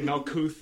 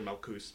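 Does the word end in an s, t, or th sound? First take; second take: th; s. First: The word ends with a th sound. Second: The word ends with an s sound. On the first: The speaker calls it wrong. "they'll mispronounce all the Hebrew. So they'll say Malkuth" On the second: The speaker calls it right. "or Malkus"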